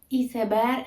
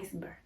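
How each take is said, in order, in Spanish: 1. Se dice con una pronunciación española, basada en la escritura. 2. Se dice cerca de la pronunciación inglesa. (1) "Iceberg en lugar de" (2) "en lugar de iceberg"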